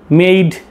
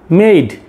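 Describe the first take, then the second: The two takes are said the same way.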